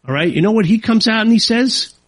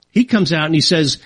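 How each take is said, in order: First: Higher, rising "you know what he comes out and he says?"; teasing question. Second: Said in the usual way. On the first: Real, not acted. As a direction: tease them with the question.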